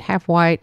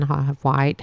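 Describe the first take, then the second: First: Half white said louder, with weight on white; half white, repeated with emphasis; stressed repeat. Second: Said in the usual way. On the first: Shown as a demonstration. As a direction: lean on white the second time.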